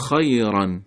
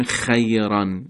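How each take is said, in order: First: خیران with a somewhat thick, full kha. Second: خیران said wrongly with a thin, light kha. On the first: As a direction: give the kha of خیران weight and fullness. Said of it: "باید یه مقدار درشت باشه". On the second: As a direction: make the kha of خیران too light as the mistake. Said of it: "نمیگیم". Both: Shown as a demonstration.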